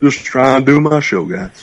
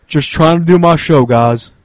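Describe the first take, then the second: First: Echoing the catchphrase in a put-on voice; J J Stoner voice. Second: Lightly voiced streamer catchphrase; J J Stoner voice. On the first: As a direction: repeat it in his voice, trailing off. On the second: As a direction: read it like J J Stoner would. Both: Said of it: "in the J J Stoner voice".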